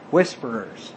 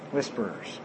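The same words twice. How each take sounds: First: Said in the usual way. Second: Whisperers dropped to a near whisper, very soft; hushed repeat. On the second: Shown as a demonstration. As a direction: say Whisperers again under your breath. Repeats the word for emphasis.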